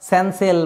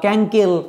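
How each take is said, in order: First: It begins with s and has s in the middle. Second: It begins with k and has k in the middle. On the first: "এগুলো হচ্ছে না" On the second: "এগুলো হচ্ছে না"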